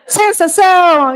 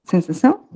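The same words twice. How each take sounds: First: High, loud triumphant announcement; excited reveal. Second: Said in the usual way. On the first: Real, not acted. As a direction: proclaim the answer with delight. Revealing the right answer.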